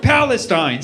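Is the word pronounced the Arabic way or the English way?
English. The word has an English pronunciation. The name feels stale.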